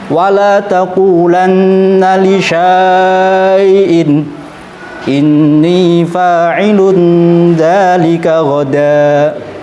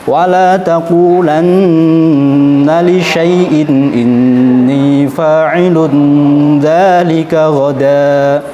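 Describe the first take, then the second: First: The vowel in li syai'in is long. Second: The vowel in li syai'in is short. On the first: The speaker calls it wrong. "contoh cara baca yang salah" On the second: The speaker calls it right. "justru harus dibaca pendek"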